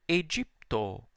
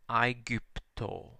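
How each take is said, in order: First: The first vowel sounds like 'eh'. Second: The first vowel sounds like 'eye'. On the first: This is the church pronunciation. "when I read it using the ecclesiastical pronunciation" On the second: This is the restored classical pronunciation. "but it's pronounced I"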